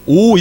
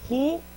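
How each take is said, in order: First: The word starts directly with the vowel o. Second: The word starts with an h sound. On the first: "요 점이 없으면 오, 오 이렇게 읽어야 되는데" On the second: "점이 있기 때문에 호 이렇게 읽어요"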